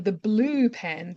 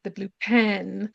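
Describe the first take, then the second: First: Blue slow and stressed, pen flat. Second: Pen stressed with a rise, blue flat. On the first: Students asking for a pen, stress on blue. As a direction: lean on "blue" in "the blue pen", slowly. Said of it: "instead of saying". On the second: Students asking for a pen, stress on pen. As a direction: push "pen" in "the blue pen", rising at the end. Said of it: "they went". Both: Shown as a demonstration.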